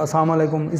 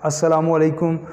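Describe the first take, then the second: First: The greeting is clipped, with syllables run together. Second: Every syllable of the greeting is pronounced fully. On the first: The speaker calls it wrong. "इस तरह कहते हैं" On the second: The speaker calls it right. "पूरा कहें"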